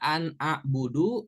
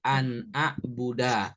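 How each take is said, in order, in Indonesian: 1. Kata terakhir berakhir dengan huruf hidup u. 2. Kata terakhir berakhir dengan huruf hidup a. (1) "Nggak boleh dibaca an a'budu" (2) "harokat huruf terakhirnya fathah seperti an a'buda"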